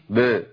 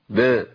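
Both takes have the same delivery.

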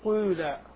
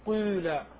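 First: The first vowel is between i and u. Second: The same.

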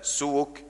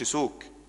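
First: The w is followed by a u vowel. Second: The w carries no vowel after it. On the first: The speaker calls it right. "لا سوك زي كتاب كتب" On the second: The speaker calls it wrong. "مش سكون، ما تقولش سوك"

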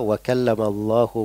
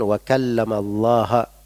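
First: The word Allah ends with a u vowel. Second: The word Allah ends with an a vowel. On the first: God is the one who spoke. The speaker calls it right. "firman Allah wa kallamallahu Musa taklima" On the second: God is the one spoken to. The speaker calls it wrong. "Darinya domma dirubah menjadi fathah"

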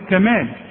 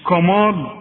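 First: The k sound is light and thin. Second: The k sound is heavy and thick. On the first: The speaker calls it right. "أقول لك كمال" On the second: The speaker calls it wrong. "مش كمال"

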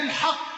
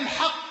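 First: The final vowel of the word is u. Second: The final vowel of the word is i. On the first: The word describes the guardianship. "ومنهم من ضم قولة الحق" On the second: The word describes God. "وهناك من قرأ الحق بالكسر"

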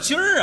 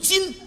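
First: The syllable ends with an r-colored sound. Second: The syllable ends without an r-colored sound. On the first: The speaker calls it wrong. "什么叫今儿啊？" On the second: The speaker calls it right. "正字读今"

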